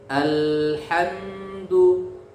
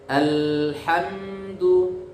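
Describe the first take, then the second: No difference in how they are said.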